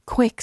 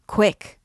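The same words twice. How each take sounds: First: Repeated cry pushed even higher and louder; the hunchback's more insistent call to move; more urgent call. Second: Sharp urgent cry, higher and louder; an urgent first call to move. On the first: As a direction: press harder the second time. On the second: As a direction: hurry him along with a raised call. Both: Acted. Hunchback urging the horse on.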